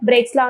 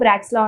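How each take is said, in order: First: The first word has an 'ay' vowel. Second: The first word has an 'ah' vowel. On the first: "బ్రేక్స్ లా అనొచ్చు" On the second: "బ్రాక్స్ లా అనొచ్చు"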